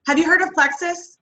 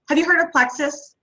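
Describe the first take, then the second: First: "Have you heard of plexus?" with the pitch rising high at the end; rising question. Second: "Have you heard of plexus?" with the pitch falling at the end; falling question. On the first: Asking a stranger, rising tune. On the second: Asking a stranger, falling tune. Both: Pretend.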